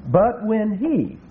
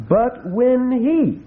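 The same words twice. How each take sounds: First: Slow, stressing he in "But when he"; emphatic he. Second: "but when he" slow, higher and louder on he; very emphatic he. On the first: Preacher stressing the Greek pronoun to listeners, slow emphatic he. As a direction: lean hard on he. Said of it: "that's an emphatic pronoun in the Greek". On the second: Preacher repeating the verse with heavier stress, higher and louder. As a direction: land the word he hard and high. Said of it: "very emphatic". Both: Shown as a demonstration.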